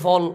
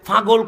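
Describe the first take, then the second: First: The word is shortened, with sounds dropped. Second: The word is said in full, all sounds kept. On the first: This is how the group actually says it. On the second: This is how the group never says it.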